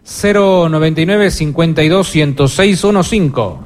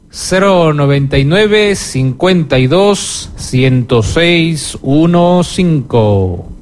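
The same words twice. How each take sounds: First: It is said at normal speed. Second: It is said more slowly.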